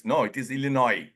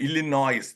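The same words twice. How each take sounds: First: Illinois said il-li-noy, no S; Illinois, S dropped; silent S Illinois. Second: Illinois with the S sounded, il-li-noys; wrong Illinois. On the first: Shown as a demonstration. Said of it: "S is silent". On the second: Retold or imitated.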